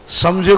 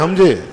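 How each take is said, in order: First: The word begins with an s sound. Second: The word begins with an h sound.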